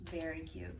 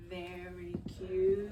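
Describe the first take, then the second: First: Said in the usual way. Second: Hushed tender whisper to a kitten. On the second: Real, not acted. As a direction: breathe Very cute slowly, barely voiced. Repeats softly to kitten.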